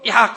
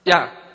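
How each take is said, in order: First: It is said loudly. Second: It is said at normal volume.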